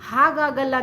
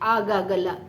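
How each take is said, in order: First: The word begins with an h sound. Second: The word begins with a bare vowel. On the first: The speaker calls it right. "ಹಾಗಾಗಲ್ಲ ಅಂತ ಹೇಳೋಕ್ಕೆ" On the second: The speaker calls it wrong.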